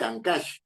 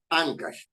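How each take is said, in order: First: The stress is on the last syllable. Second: The stress is on the first syllable. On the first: The speaker calls it wrong. "Uno no dice Ancash" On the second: The speaker calls it right. "sino dice Ancash. Como es en la penúltima, es grave o llana"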